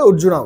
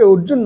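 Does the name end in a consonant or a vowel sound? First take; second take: vowel; consonant. First: The name ends in an added 'a' vowel. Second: The name ends in a consonant sound. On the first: This is how it is said in English. "ইংরেজিতে আমরা ... অর্জুনা বলি" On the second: This is how it is said in Bengali. "অর্জুন না বলে"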